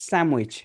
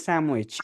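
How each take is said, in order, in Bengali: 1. মাঝখানটা 'm' ধ্বনি দিয়ে উচ্চারিত হয়। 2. মাঝখানটা 'm' ধ্বনি দিয়ে উচ্চারিত হয়।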